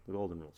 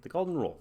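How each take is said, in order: First: Said in the usual way. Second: The golden rule flung out higher, golden stressed; eager exclamation. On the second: Real, not acted. Viewer naming the song's moral, higher and eager. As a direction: pounce on the answer. Excited realisation of the meaning.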